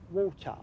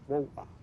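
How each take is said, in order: First: "water" with the t sounded; standard English pronunciation. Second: "water" with a glottal stop for the t; Cockney "wa'er", the middle t swallowed in "water"; Cockney pronunciation. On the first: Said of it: "In English". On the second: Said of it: "In Cockney, we say water". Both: Shown as a demonstration.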